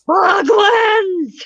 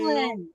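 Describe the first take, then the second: First: It is said angrily and forcefully. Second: It is said calmly, without anger.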